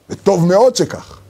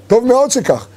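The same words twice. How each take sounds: First: "טוב מאוד שכך" said slowly, weight on "מאוד"; slow emphasis. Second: "טוב מאוד שכך" higher, "מאוד" stressed and falling; higher emphatic repeat. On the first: ("וטוב מאוד שכך" לאט, הדגשה על "מאוד") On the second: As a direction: lift the repeat up high on "מאוד". ("טוב מאוד שכך" בגובה רב, "מאוד" מודגש ויורד) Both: Shown as a demonstration.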